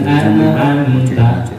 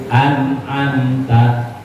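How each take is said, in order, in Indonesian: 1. Bunyi n mantul, lalu lepasannya bergema. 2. Bunyi n ditahan halus, tanpa mantul. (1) "jangan an'amta. Salah" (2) "Nunnya jangan mantul"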